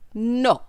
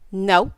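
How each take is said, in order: First: It is said in a put-on foreign accent. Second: It is said in the speaker's ordinary accent.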